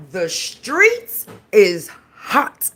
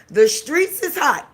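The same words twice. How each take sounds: First: Streets is hot, slow, leaning hard on streets with a rising tune; drawn-out emphasis. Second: Said in the usual way. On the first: Shown as a demonstration. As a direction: stretch "streets" long and sell the news.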